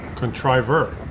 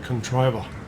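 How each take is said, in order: First: The word ends with a pronounced r sound. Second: The word ends in ah with no r.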